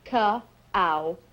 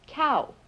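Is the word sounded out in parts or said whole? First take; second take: in parts; whole. First: The word is broken into separate sounds. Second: The word is said as one smooth syllable.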